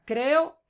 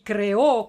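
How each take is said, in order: First: Creo with the weight on the first syllable, CRE-o; stress on CRE. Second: Creó punched loud on the last syllable, cre-Ó; stress on final Ó. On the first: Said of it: "la fuerza de la pronunciación". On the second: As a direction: hit the final ó of creó hard. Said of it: "como lo habías puesto". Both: Shown as a demonstration.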